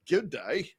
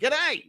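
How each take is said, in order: First: Both words are said fully and separately. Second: The two words merge into one short syllable. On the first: The speaker calls it wrong. "you don't say good day" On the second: The speaker calls it right. "G'day, not good day"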